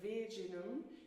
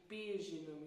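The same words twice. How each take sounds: First: The word begins with a v sound. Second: The word begins with a soft b sound. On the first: The speaker calls it wrong. "rather than v" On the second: The speaker calls it right. "You have a b, like this soft b"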